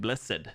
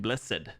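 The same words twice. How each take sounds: First: The word has two syllables, with the e sounded. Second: The word has two syllables, with the e sounded.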